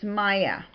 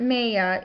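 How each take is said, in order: First: Maya said the corrected way, as MY-uh. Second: Maya said the mistaken way, as MAY-uh; mispronounced Maya. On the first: Blogger passing on viewers' tip, Maya pronounced correctly. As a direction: say "Maya" with "my" as its first syllable. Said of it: "They say it's not Maya". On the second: Blogger showing viewers the mistake they corrected, Maya mispronounced. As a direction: say "Maya" with "may" as its first syllable. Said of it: "tell me how to pronounce the word". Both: Shown as a demonstration.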